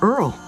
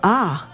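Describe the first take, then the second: First: The R and L sounds are pronounced. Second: The R and L sounds are dropped. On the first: "instead of the Duke of Earl" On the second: "might say the Duke of Ah"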